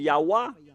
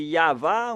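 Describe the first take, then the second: First: The middle consonant is a W sound. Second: The middle consonant is a V sound. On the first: The speaker calls it wrong. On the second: The speaker calls it right.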